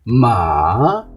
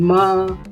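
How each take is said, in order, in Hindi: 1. स्वर पहले नीचे जाता है, फिर ऊपर उठता है। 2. स्वर पूरी तरह सीधा और एक जैसा रहता है। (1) "आवाज़ पहले डाउन जाएगी उसके बाद ऊपर जाएगी" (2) "ना आवाज़ ऊपर जा रही है ना नीचे जा रही।"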